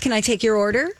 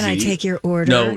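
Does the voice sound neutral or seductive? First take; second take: neutral; seductive. First: The voice is plain, friendly and ordinary. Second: The voice is put on, sultry and suggestive. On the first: "Could you just have a normal personal voice?" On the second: "That sounds way too suggestive"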